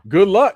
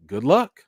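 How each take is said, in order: First: Louder, with a real laugh through it; laughing good luck. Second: Said in the usual way. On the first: Real, not acted. To the listeners about biopics, laughing sceptically. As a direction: laugh it off, doubtful.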